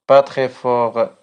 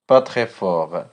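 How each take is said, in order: Both takes have the same delivery.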